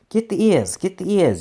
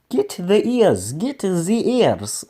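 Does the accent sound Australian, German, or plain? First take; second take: plain; German. First: It is said in his plain reading voice. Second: It is said in a German-sounding accent.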